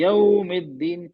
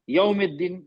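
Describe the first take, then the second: First: यौमिद्दीन slowly, gliding gently through 'yau'; soft reading. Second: यौमिद्दीन with a hard, abrupt 'yau'; hard reading. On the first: Teacher models recitation for students, यौमिद्दीन slow with soft 'yau'. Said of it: "नरमी से पढ़ेंगे". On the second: Teacher shows students the mistake, यौमिद्दीन with hard 'yau'. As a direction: hit the 'yau' of यौमिद्दीन harshly, without the gentle glide. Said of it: "ये सख्ती हो गई". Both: Shown as a demonstration.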